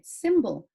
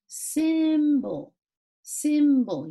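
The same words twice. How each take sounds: First: Said in the usual way. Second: Symbol stretched long on the first syllable, higher; drawn-out sounding out. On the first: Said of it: "That's the word". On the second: Shown as a demonstration. Teacher showing pupils the I sound, symbol drawn out. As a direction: hold the short i in symbol, pitched up. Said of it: "You see how it has an I sound?".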